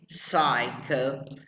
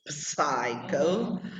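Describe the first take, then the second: First: The initial P sound is silent. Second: The initial P sound is pronounced. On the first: The speaker calls it right. "but you say psycho" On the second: The speaker calls it wrong. "You don't say psycho"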